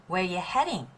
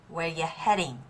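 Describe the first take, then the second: The two takes are said the same way.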